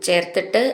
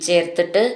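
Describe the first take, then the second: The two takes are said the same way.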